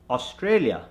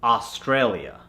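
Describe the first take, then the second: First: Australia starting on a rounded "o"; Indian accent. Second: Australia starting on an open "ah"; American accent. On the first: Coach gives the word to convert, Indian accent. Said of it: "from the Indian accent". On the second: Coach gives the converted word, American accent. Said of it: "to the American accent". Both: Shown as a demonstration.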